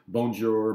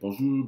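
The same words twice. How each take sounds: First: It is said with an English-sounding accent. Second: It is said with a good French accent. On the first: The speaker is not a French speaker. The speaker calls it right. "So I will say" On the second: The speaker seems to speak French fluently. The speaker calls it wrong. "rather than saying"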